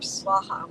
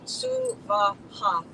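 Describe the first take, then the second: First: The word is squeezed into two syllables. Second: The word has three separate, equal syllables. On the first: The speaker calls it wrong. "not Swaha or Swaha, which you'll hear a lot on YouTube" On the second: The speaker calls it right. "three separate, distinct, equal syllables"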